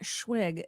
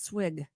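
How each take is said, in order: First: The word begins with a 'shw' sound. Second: The word begins with an 'sw' sound. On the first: The speaker calls it wrong. "It's not Schwig" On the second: The speaker calls it right. "It's Swig"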